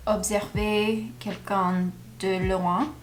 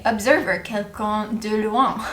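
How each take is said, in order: First: Observer in French, ob-ser-VAY with throaty R; French pronunciation. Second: Observer as English ub-ZER-ver, American R; English pronunciation. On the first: Learner reading a French sentence, observer pronounced the French way, ob-ser-VAY. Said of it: "I wanna say". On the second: Learner confessing what she wants to say, observer said as English ub-ZER-ver. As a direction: anglicize observer inside the French sentence. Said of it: "Pronounce it with a full English accent". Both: Shown as a demonstration.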